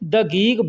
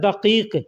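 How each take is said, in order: First: The word is said with a g sound. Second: The word is said with a deep q sound. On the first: This is how local people actually say it. "लेकिन बोलने के लिए लोग दगीग बोलते हैं" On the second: This is how the word is written. "लिखा जाता है दकीक, दकीक बड़ा काफ लिखा जाता है"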